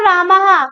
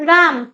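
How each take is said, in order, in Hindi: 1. शब्द के अंत में 'ha' की गूंज जुड़ती है। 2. शब्द व्यंजन पर सादा खत्म होता है। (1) "राम को रामहा" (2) "मैंने हिंदी बोल दी"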